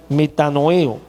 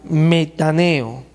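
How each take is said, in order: First: "metanoeo" corregido, con acento en la E. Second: "metaneo" sin la segunda "o", despacio; pronunciación equivocada. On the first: Shown as a demonstration. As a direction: say "metanoeo" fully, stressing the E. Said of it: "con acento en la E". ("metanoeo" completo, acentuando la E) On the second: Real, not acted. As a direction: say "metaneo", dropping the "o" before the E. ("metaneo" mal dicho, comiéndose una sílaba)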